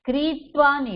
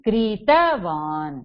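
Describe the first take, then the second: First: No vowel is heard between t and v. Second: A short a vowel is heard between t and v. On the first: The speaker calls it wrong. "கிரீத்வான் இல்ல தலஹலந்த் இருக்கா?" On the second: The speaker calls it right. "அப்ப எப்படி சொல்லணும்? கிரீதவான் சொல்லுங்க"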